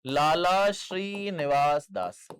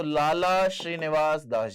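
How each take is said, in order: First: Lala Srinivas Das stretched out word by word; slow emphatic repeat. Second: Said in the usual way. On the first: Shown as a demonstration. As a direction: dictate Lala Srinivas Das slowly and firmly. Teacher repeats name slowly for notes. (लाला श्रीनिवास दास धीरे-धीरे, साफ़ बोलकर)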